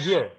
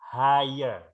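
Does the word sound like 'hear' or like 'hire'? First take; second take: hear; hire. First: The vowel sounds like the one in 'hear'. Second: The vowel sounds like the one in 'fire'. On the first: The speaker calls it wrong. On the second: The speaker calls it right. "hire ini dibaca hire ya"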